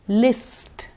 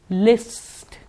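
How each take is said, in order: The two takes are said the same way.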